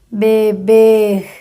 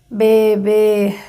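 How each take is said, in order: The two takes are said the same way.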